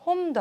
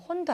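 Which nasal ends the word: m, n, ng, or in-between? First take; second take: m; n. First: The word ends in a clear m sound. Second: The word ends in a clear n sound. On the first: "홈도 아니고" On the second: "혼도 아니죠"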